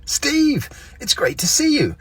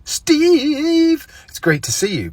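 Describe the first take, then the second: First: "Steve," drawn out much higher and louder as a greeting; prolonged name. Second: "Steve," stretched very long, very high and loud in a strange tone; overlong name. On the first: Greeting Steve, name prolonged high. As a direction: stretch "Steve," up high and happy. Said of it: "sometimes okay to prolong somebody's name". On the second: Greeting Steve, name stretched absurdly long. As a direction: hold "Steve," far too long and high. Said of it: "generally not allowed to say". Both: Shown as a demonstration.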